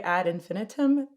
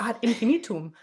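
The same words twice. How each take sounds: First: It is said with a plain English pronunciation. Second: It is said with a German or Latin-like pronunciation. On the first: "So I say ad infinitum" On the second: "But that's very German"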